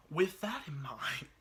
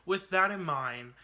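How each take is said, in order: First: Slow breathy whisper. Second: Said in the usual way. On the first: Shown as a demonstration. Vlogger whispering the phrase before redoing it, slow. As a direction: whisper it slowly, half breaking.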